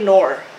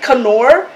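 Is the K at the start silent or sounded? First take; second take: silent; sounded. First: The initial K is silent before the n. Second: The initial K is sounded before the n. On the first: The speaker calls it right. "I think it's nor because we don't say knife" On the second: The speaker calls it wrong. "do you say it canor"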